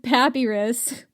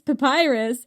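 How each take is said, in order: First: The word is pronounced in a made-up, nonstandard way. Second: The word is pronounced in the usual standard way. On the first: The speaker calls it wrong. "you said papyrus" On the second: The speaker calls it right. "And it's papyrus"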